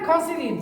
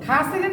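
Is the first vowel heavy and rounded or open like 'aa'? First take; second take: heavy; open. First: The first vowel is heavy and rounded. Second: The first vowel is an open 'aa'. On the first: The speaker calls it right. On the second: The speaker calls it wrong.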